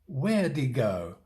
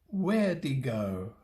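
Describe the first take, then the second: The two takes are said the same way.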